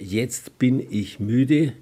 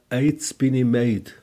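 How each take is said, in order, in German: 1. Es wird mit standarddeutschen Vokalen gesprochen. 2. Es wird mit nordbayerischen gestürzten Zwielauten gesprochen. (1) "Zum Beispiel für" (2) "sagt er ja"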